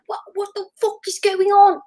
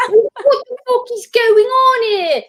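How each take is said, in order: First: High-pitched, exasperated actor caught off guard; hammed-up accented outburst, pitched way up; Russell Crowe. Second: Louder, much higher Australian-accented mock yell; hammed-up outraged Australian star shouting on set; Russell Crowe. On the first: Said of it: "that's my Russell Crowe impression". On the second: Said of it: "he's Australian, but he's like".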